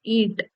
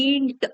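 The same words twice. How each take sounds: First: Said in the usual way. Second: ईंट with the nasal ईं clearly sounded; nasal vowel demo. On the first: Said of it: "न वाला शब्द के लिए ये dot". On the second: Shown as a demonstration. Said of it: "हम ईंट को कैसे बोलते हैं?". (ईंट को नाक से बोलकर दिखाना)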